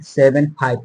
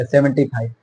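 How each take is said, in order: First: seven five as two separate digits, not seventy five. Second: seventy five read as one whole number; wrong reading. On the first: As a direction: read seven then five one at a time. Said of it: "न कि आपको पढ़ना होगा seven, अ, seventy five". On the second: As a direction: say seventy five like seventy-five, the mistake to avoid. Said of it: "seventy five पढ़ेंगे तो गलत हो जाएगा". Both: Shown as a demonstration.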